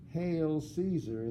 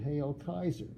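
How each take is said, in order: First: The second word begins with an S sound. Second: The second word begins with a K sound. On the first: This is the later, non-Roman pronunciation. The speaker calls it wrong. "the Romans didn't say" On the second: This is how the Romans said it. The speaker calls it right. "they said"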